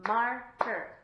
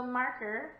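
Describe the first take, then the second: First: MAR-KER in two loud, separate beats; clapped out. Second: Said in the usual way. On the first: Shown as a demonstration. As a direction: punch out Marker syllable by syllable. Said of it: "We're gonna clap it out".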